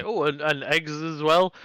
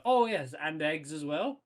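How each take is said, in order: First: Slow, offhand "Oh, and, and eggs as well"; casual afterthought. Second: Casual afterthought. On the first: Acted. GM repeats the player's afterthought to the hobgoblin, offhand. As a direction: toss it over your shoulder, slowly. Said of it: "turn back around and say". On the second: Pretend. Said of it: "turn back around and go".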